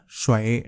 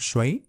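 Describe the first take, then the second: First: The syllable has a low dipping tone. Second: The syllable has a rising tone.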